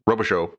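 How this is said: The name is pronounced the English way. "coworkers who anglicize their French names"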